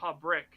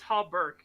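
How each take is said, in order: First: The second syllable sounds like 'brick'. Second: The second syllable sounds like 'berk'. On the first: The speaker calls it wrong. "I put the R first, so I said Hobbrick" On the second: The speaker calls it right. "it's Hobberk. You're right"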